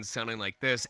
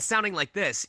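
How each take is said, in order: First: Deep chest register demo; low chest voice. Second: Lighter, higher register demo; head voice. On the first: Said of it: "the difference between sounding like this". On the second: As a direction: lift it up out of the chest. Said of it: "and sounding like this". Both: Shown as a demonstration.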